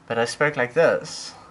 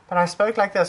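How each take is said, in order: First: The voice is pitched lower and heavier. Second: The voice is pitched higher and softer. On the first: Listeners took the speaker for a man. The speaker calls it wrong. "I got misgendered left, right, and center" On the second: Listeners took the speaker for a woman. The speaker calls it right. "I didn't get misgendered once"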